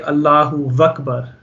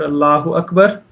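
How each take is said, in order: First: A v sound is added before Akbar. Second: Akbar starts directly with a vowel sound. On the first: The speaker calls it wrong. "people say Allahu Vakbar, okay, which is obviously not correct" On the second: The speaker calls it right. "we would say Akbar"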